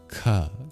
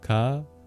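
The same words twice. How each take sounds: First: The k is released with a puff of air. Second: The k is released without a puff of air. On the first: "the second one is aspirated" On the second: "The first one is not"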